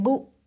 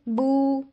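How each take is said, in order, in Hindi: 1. स्वर को झटके के साथ छोटा काटा जाता है। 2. स्वर को अतिरिक्त देर तक खींचा जाता है। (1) "इतना छोटा कर देते हैं कि उसमें झटका आ जाता है" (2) "हम इनको एक्स्ट्रा लंबा कर देते हैं"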